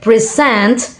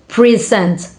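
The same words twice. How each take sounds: First: The stress is on the second syllable. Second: The stress is on the first syllable. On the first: It is a verb. "stress on the second syllable" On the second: It is a noun. "stress on the first uh, syllable"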